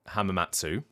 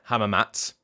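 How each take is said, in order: First: The final vowel is fully pronounced. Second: The final vowel is dropped completely. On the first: "some people are pronouncing it hamamatsu" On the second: "don't pronounce the oo at the end"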